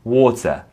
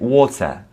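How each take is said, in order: First: The middle T is pronounced as a clear T. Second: The same.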